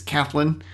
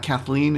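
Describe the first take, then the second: First: "Kathleen" with a short, reduced ending, like Kath-lin; corrected pronunciation. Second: "Kathleen" with a clear long "ee" ending; rejected pronunciation. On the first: Host correcting the Australian woman's name, "Kathleen" said as Kath-lin. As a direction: say "Kathleen" as KATH-lin, second syllable weak. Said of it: "it's Kathleen". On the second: Host showing how an Australian's name is not said, "Kathleen" ending in "leen". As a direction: say "Kathleen" as Kath-LEEN, full second syllable. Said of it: "That's why it's not Kathleen". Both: Shown as a demonstration.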